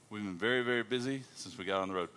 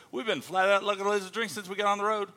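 First: Said in the usual way. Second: High-pitched, animated Aussie speak; Australian accent. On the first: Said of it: "she interprets for you". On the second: Shown as a demonstration. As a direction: rattle off the slang like an Australian. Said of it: "I speak Australian".

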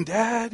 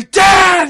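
First: Put-on a scared kid's hushed call in the dark; soft whisper. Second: Much higher, much louder yell for dad; a kid finding his bravery and yelling it out; retold scream. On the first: Small son calling his dad softly from bed. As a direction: breathe the word out softly, afraid to wake anyone. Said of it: "you hear just that soft whisper". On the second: Frightened boy screaming for dad at night. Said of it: "you know, screaming".

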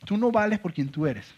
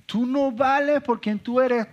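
First: Said in the usual way. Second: Much higher and slower, leaning on "vales"; emphatic repeat. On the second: Shown as a demonstration. The devil's lie repeated with slow high emphasis on "vales". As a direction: hammer "vales" slowly from up high. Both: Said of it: "Es decirnos".

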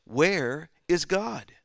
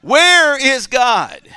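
First: A sterner, slow "Where is God?". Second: Loud, high, slow "Where is God?"; shouted punchline. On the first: A narrator's reading. Clergyman repeats his question to the silent boy, sterner. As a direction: press the question harder, slowly. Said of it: "in an even sterner tone". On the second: Acted. Preacher repeats the clergyman's shout to the congregation. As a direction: belt the punchline out to the room.

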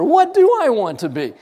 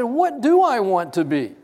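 First: Raised, louder retelling of his question; loud amused question to the interviewer; excited loud question. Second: Laughing question. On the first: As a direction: ask it louder, higher, amused. Asked her, laughing. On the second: Laughing as he asks. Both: Retold or imitated.

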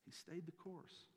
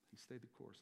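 First: Slow, higher, drawn-out statement; deliberate slow first take; slow emphasis. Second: Much softer repeat, trailing off; quiet settling echo. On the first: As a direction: lean on each word slowly. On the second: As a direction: say it again under the breath. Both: Real, not acted. Repeats line for emphasis.

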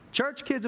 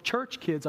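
First: Church said higher and firmer; correction, stress on church. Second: Said in the usual way. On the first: Real, not acted. Pastor correcting himself, hits church. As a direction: lean on the word church. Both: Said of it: "I should say".

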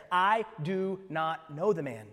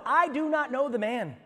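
First: Slow, deliberate oath; sworn denial. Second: High, loud, slower oath of denial; emphatic denial. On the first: Peter swearing to the bystanders, slow, deliberate denial. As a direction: space out each word as if swearing. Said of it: "to invoke a curse on himself". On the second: Peter denying Jesus to the bystanders, emphatic oath. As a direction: swear it forcefully, raised and slow. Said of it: "again he denied it with an oath". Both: Acted.

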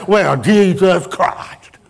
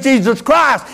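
First: Slow, drawn-out mock curse; flippant oath. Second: Savior's name preached high and forceful; reverent proclamation. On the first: Preacher mimicking people swearing when things go wrong, flippant oath. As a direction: toss the name out as a slow, exasperated swear. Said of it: "flip out there whenever things is going wrong". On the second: Real, not acted. Preacher naming the Savior to the church, forceful proclamation. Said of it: "a name that you can flip out there".

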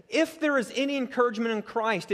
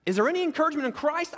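First: There stressed, falling firmly on Christ, not a question; confident, falling conditional; assured statement. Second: Christ rising high and fast like a real doubt, any lifted; mock-doubting question; doubtful questioning. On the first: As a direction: state it as settled fact. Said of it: "it's more along the lines of this". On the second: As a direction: ask it quick and high as if you truly doubt it. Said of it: "is he questioning this?". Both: Shown as a demonstration.

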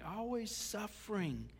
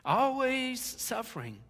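First: "always suffering" said softer and slowly, weighing each word; quiet, slow. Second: "Always suffering" higher, louder and slow, punched in disbelief; loud emphatic. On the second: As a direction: hit "Always suffering" hard and high. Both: Shown as a demonstration.

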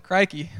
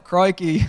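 First: Said in the usual way. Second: Inner Australian "Crikey", with the Australian vowel of "Crikey"; Australian accent. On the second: Retold or imitated. A fake Aussie thinks his Australian "Crikey". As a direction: say "Crikey" in your head like a true Australian. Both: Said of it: "'cause I'm not Australian".

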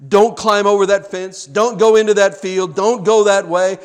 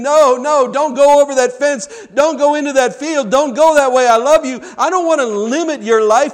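First: Loud, raised preacher's warning; forceful command from God; urgent warning. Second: High, loud, anguished pleading; acted crying voice of God, preached loud; weeping plea. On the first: Acted. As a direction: firmly warn them off. God's stern warning, voiced. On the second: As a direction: cry out like a grieving father begging. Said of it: "you can hear God weeping, the cry-, weeping, crying voice of God".

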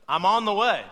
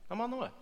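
First: Louder, firm announcement of the lie; confident loud I'm on the way; loud claim. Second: Softer, higher muttered repeat; hushed knowing I'm on the way; quiet aside. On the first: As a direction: say it out loud as if it were true. Quoting the common lie. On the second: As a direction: drop it to a sly murmur. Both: Shown as a demonstration.

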